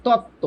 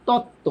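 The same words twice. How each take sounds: The two takes are said the same way.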